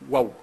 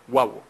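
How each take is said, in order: No difference in how they are said.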